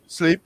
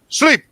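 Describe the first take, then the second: First: It is said weakly, not as a command. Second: It is said as a firm command.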